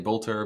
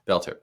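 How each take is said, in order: First: The first vowel sounds like the one in 'bolt'. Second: The first vowel sounds like the one in 'belt'. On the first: The speaker calls it wrong. "Some will say Bolter" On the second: The speaker calls it right. "the correct pronunciation is Belter"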